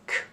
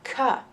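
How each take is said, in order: First: The consonant is said alone with no added vowel. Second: The consonant is followed by an extra uh vowel. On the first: The speaker calls it right. "C is K" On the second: The speaker calls it wrong. "C is not K"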